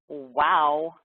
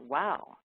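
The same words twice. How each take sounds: First: It is said in a cold, dismissive tone. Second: It is said in a warm, encouraging tone. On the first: The listener shuts the speaker down. The speaker calls it wrong. "turn it into a door closer with a tone of voice" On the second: The listener invites the speaker to keep talking. The speaker calls it right. "nice friendly little door opener"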